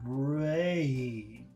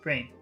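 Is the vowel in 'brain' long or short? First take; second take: long; short. First: The vowel is long and gliding. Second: The vowel is short and clipped. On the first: The speaker calls it right. "it's brain" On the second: The speaker calls it wrong. "So it's not brain"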